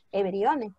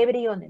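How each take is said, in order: First: Everyone said as EV-ree-one, not read letter by letter; say it as written, not as spelt. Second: Said in the usual way. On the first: Shown as a demonstration. Teacher models everyone for her students, clearly pronounced. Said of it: "Se escribe everyone, no me vas a leer tú". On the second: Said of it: "no me vas a leer tú".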